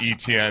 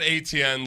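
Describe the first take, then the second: First: The name begins with an 'ee' sound. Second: The name begins with an 'ay' sound. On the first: The speaker calls it right. "you're supposed to pronounce it E T N" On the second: The speaker calls it wrong. "not A T N like the way you would expect"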